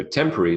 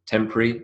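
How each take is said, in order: First: "temporary" said as TEM-puh-ree; three-syllable temporary. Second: "temporary" said as TEMP-ree; two-syllable temporary. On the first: Lecturer contrasting both variants, three-syllable "temporary". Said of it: "is three syllables". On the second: Lecturer contrasting both variants, two-syllable "temporary". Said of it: "is two syllables". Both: Shown as a demonstration.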